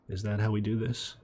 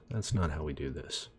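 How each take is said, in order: First: Rising, doubtful question on how; questioning rise. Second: Not stressed, lower, falling statement. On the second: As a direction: hit not and let it fall. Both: Shown as a demonstration.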